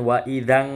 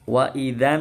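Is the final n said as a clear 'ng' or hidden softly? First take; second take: clear ng; hidden. First: The final n is said as a clear 'ang'. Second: The final n is hidden softly, not a clear 'ang'. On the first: The speaker calls it wrong. "bukan wa idzan, salah, enggak ada ang dalam Al-Qur'an" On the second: The speaker calls it right. "jadi nunnya dibaca disamarkan ya, enggak dengung ya"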